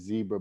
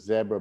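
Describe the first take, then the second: First: The first vowel is long, as in 'see'. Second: The first vowel is short, as in 'bed'. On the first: This is how most other people say it. "a zebra barrel to to everyone else" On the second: This is how the speaker personally says it. "you'll have to pronounce this like me"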